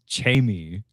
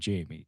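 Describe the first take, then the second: First: The name starts with a harder ch-like sound. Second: The name is said with a plain J sound. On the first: "like I say it like Arnold Schwarzenegger says" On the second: "Jamie is not Jamie"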